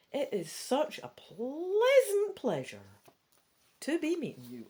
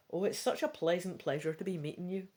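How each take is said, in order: First: Put-on Scottish accent. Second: Said in the usual way. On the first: Joe greeting Pandora in a Scottish accent. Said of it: "giving her a Scottish accent before". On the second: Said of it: "I'm not giving everybody voices".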